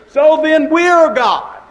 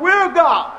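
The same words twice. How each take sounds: First: "we're God" rings out high and loud; preaching climax. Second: "We're God" flung out high and strong; triumphant answer. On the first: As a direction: lift it up like a revelation. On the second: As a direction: crown the question with a cry. Repeated answer, even higher. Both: Real, not acted.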